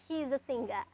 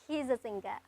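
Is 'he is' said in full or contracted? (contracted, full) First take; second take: contracted; contracted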